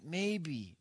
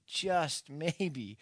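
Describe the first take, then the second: First: Said in the usual way. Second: "just" leaned on, then "maybe" falls away; stress on JUST. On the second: Shown as a demonstration. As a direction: hit "just" and let "maybe" drop.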